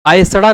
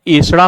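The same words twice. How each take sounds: First: ऐसड़ा begun with the diphthong "a-e"; wrong "ai" opening. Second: एसड़ा begun with a pure "e"; correct "e" opening. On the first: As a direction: open ऐसड़ा on a gliding "ai". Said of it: "ऐसड़ा नहीं होता है". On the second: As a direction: open एसड़ा on a steady "e", no glide. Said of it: "एसड़ा होता है". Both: Shown as a demonstration.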